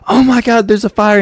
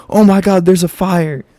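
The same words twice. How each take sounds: First: Higher, louder startled cry of "Oh my God"; panicked shriek. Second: Lighter retold startled "Oh my God"; mock panicked shriek. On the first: Retold or imitated. Classmate jumps up seeing sparks, startled cry. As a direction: yelp it like you just spotted flames. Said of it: "And she's like". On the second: Retelling the funny moment, mock startled cry. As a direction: echo her alarm while still laughing about it. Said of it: "she jumped up and was like".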